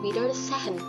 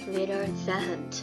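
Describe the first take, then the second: First: The s sounds like s, h is voiced. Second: The s sounds like z, h is silent. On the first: The speaker calls it wrong. "nggak dibaca Wiedersehen" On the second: The speaker calls it right. "S itu ... dibaca seperti Z"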